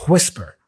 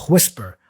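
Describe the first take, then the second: Both takes have the same delivery.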